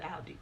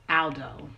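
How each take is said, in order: First: "Aldi" ending on an ee sound; corrected "Aldi"; correct name. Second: "Aldo" with a clear final o; mispronounced "Aldo"; wrong name. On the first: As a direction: say "Aldi" with a final ee. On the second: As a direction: say "Aldo", ending on an oh sound. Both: Shown as a demonstration. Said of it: "I said Aldi".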